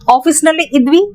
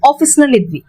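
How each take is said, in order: First: The two words are said separately. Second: The two words are run together as one.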